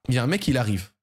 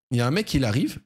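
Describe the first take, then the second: No difference in how they are said.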